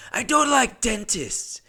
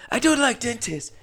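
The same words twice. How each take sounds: First: High, slow put-on Asian accent; imitating the Asian guy. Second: Callback to the juror's accent impression; imitating the Asian guy. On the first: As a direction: drawl it slowly in the mock accent. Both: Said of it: "I'm just gonna do his voice".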